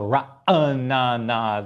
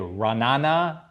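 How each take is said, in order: First: The name is said with four syllables. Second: The name is said with three syllables. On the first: The speaker calls it right. "the correct way to say the name" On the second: The speaker calls it wrong. "isn't the authentic way"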